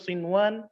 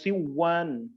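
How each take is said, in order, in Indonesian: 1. Bunyi n dilafalkan dengan jelas sebelum w. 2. Bunyi n menyatu dengan w dan lenyap. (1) "kita membacanya dengan jelas" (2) "tidak dibaca dengan siwan"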